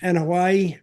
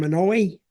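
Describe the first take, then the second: First: Anoa'i repeated as "ah-nuh-WHY", settling on it; corrected name. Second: Anoa'i tried as "muh-NOY", asking; a tentative, questioning guess at Anoa'i; unsure try at a name. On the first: Host repeating the family name after correction, careful. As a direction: echo Anoa'i back the way you were just taught. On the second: Host unsure of the family name, tentative guess. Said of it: "how do you say that last name?". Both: Shown as a demonstration.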